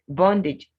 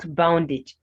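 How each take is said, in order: First: The first vowel sounds like 'o' in 'on'. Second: The first vowel sounds like 'ow' in 'now'. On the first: The speaker calls it right. "O as the O sound" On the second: The speaker calls it wrong. "not boundage"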